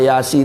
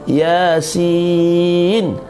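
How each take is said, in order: First: The word ends with the syllable 'si'. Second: The word ends with the syllable 'sin'. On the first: The speaker calls it wrong. "tak boleh" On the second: The speaker calls it right. "Dibaca dengan huruf lah"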